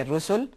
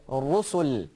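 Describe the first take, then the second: First: Rusul with a thin English R; flat wrong Ra. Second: Rusul with a heavy rolled Ra, a little slower; thick Ra. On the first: Teacher showing the wrong thin Ra in Rusul. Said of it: "You don't say". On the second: Teacher showing the correct thick Ra in Rusul. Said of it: "you say". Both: Shown as a demonstration.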